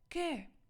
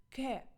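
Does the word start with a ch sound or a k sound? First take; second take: k; k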